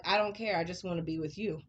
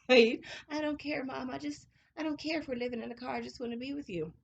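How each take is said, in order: First: Said in the usual way. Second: Tender son voice, re-enacted. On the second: Son's words re-enacted, moved.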